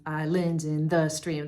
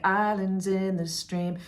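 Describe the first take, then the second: First: "Islands in the Stream" with "lands" and "the" hit; exaggerated wrong stress. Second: "islands in the stream" slow and smooth, first syllable of "islands" leading; natural stress. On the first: Teacher showing what singers don't do, stress on "lands" and "the". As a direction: lean heavily on "lands" and "the". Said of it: "They're not doing that". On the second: Teacher showing what singers do, natural stress on "islands" and "stream". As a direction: stretch it naturally, "in the" unstressed. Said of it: "they're saying it very naturally". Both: Shown as a demonstration.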